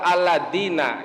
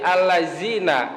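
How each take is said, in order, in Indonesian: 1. Huruf tengahnya adalah bunyi 'd'. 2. Huruf tengahnya adalah bunyi 'z'. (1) "atau dengan dal" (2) "diganti za"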